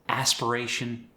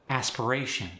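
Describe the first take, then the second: The two takes are said the same way.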